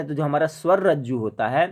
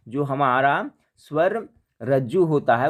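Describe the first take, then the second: First: Said in the usual way. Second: स्वर रज्जु repeated slowly and deliberately; slower repeat. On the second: Shown as a demonstration. Teacher slowing down to repeat the key term for students. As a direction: say it again slowly, leaning on स्वर.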